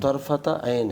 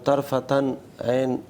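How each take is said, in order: First: No 'n' sound comes before 'ayn'. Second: An 'n' sound comes right before 'ayn'. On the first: The speaker calls it right. "बल्कि तरफत ऐन है" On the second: The speaker calls it wrong. "तरफतन ऐन नहीं"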